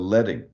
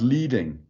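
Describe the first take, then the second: First: The first syllable sounds like 'led'. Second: The first syllable sounds like 'leed'. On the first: The speaker calls it right. "It's like lead. It's metal" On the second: The speaker calls it wrong. "it's not leading"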